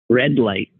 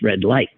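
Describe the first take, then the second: First: The stress falls on the first word. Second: The stress falls on the second word. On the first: This is how it's said locally. "Here, there's more push on the first syllable" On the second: This is how it's said in Wisconsin. "And in Wisconsin"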